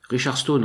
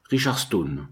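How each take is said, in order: First: Pitched higher, calling the name out more firmly; raised voice. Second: Pinched nasal disguise through a wooden wall. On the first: Narrator calling Pickman's false name through the cabin wall, raised voice. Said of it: "en haussant le ton". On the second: Narrator disguising his voice at Pickman's cabin wall, nasal. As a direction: say the name through the nose, disguised. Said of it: "d'une voix nasillarde". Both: Acted.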